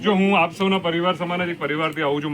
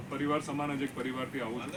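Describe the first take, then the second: First: Louder, projecting to the room; speaking up louder. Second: Soft, hard-to-hear intro line; too quiet to hear. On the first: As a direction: raise the voice so the hall hears. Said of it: "થોડું જોરથી બોલીશ". (થોડું જોરથી, hall સુધી સંભળાય એમ) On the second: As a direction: says it too softly for the room. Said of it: "સંભળાતું નથી?". (ધીમા અવાજે, સંભળાય નહીં એવું) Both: Real, not acted.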